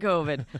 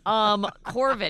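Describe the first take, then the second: First: It is said without an R sound. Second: It is said with an R sound.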